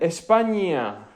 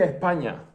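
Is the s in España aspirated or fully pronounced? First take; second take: full; aspirated. First: The s is fully pronounced as a hiss. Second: The s is aspirated, not fully pronounced. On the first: The speaker stays faithful to the full form. "la fidelidad te tira en la otra dirección. Se dice España" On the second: The speaker takes the easier path of least effort. "El murciano no quiere pronunciar las eses, quiere aspirar"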